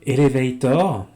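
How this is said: It is said with a French pronunciation. The speaker calls it wrong. "pire, hein, avec un accent français"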